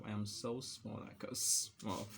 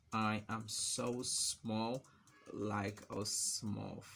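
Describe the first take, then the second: First: Said in the usual way. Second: Very slow, drawn-out words; typing-pace dictation. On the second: Real, not acted. Typing small example text, very slow dictation. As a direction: stretch it out, pausing midway.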